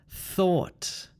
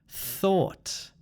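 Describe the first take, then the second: Both takes have the same delivery.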